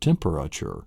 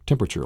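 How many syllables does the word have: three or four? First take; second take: four; three. First: The word is said with four syllables. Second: The word is said with three syllables. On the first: The speaker calls it right. "There's actually four syllables in this" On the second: The speaker calls it wrong. "like three, they'll pronounce three syllables"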